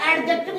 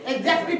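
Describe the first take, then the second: First: The d sound is pronounced clearly. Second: The d sound is muffled, almost silent. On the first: The speaker calls it wrong. "एडजेक्टिव नहीं पढ़ना है" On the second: The speaker calls it right. "ज पढ़ना, न कि ड पढ़ना"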